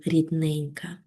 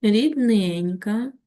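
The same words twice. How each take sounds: First: Soft fading word in a poem; expressive poem reading. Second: Рідненька drawn out very slowly with a lifted rise, word by word; slow pointed word. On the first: Teacher recites the poem's tender word to pupils, softly. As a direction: let the word рідненька sink softly at the line's end, rising gently. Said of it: "виразно прочитати вірш". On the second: Teacher stresses the adjective for pupils to underline, slow. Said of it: "підкреслюємо з вами саме прикметники". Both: Shown as a demonstration.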